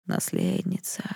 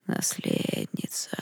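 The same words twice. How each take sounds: First: A low, faint voice of the darkness calling; eerie spirit voice, much lower and softer; crackling dark voice. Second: Slow, barely audible hiss; a ghostly whisper from nowhere. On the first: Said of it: "знакомый трескучий голос". (тьма зовёт наследницу, низкий трескучий голос) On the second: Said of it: "прошипел кто-то, едва слышно". (тьма шепчет героине, медленный шипящий шёпот) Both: Acted.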